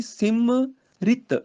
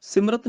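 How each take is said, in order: First: ਸਿਮਰਿਤ spelled out slowly as si-mi-rit; correct pronunciation. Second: ਸਿਮਰਤ said without the i after m; ਸਿਮਰਤ, dropping the short i vowel; wrong pronunciation. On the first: Teacher correcting students, slowly sounding out ਸਿਮਰਿਤ. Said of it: "ਰਾਰੇ ਨੂੰ ਸਿਹਾਰੀ ਇੱਥੇ ਉਚਾਰਨ ਹੋਏਗੀ". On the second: Teacher showing the wrong way, ਸਿਮਰਤ said without the short i. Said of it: "ਸਿਮਰਤ ਨਹੀਂ". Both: Shown as a demonstration.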